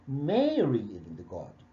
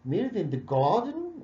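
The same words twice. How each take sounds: First: "Mary is in the garden" said slowly with Mary stressed. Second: "Mary is in the garden" said slowly with garden stressed. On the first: Teacher shows students the right answer, Mary stressed. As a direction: put the weight on Mary, it answers who. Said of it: "Mary ليه؟ لأن بيقول Who is". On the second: Teacher shows students the wrong stress, on garden. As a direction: lean on garden as the wrong answer to who. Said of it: "ولا أقول". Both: Shown as a demonstration.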